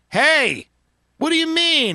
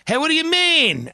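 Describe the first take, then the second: First: It is said more slowly. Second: It is said at normal speed.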